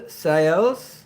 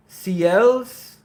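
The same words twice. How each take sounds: First: Ciels said as "sigh-ELZ"; pronunciation attempt. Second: Ciels said as "see-ELZ"; pronunciation attempt. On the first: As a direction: try Ciels with a "sigh" start, rising into a question. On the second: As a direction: try Ciels with a "see" start, high and questioning. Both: Shown as a demonstration. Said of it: "how do I say your name".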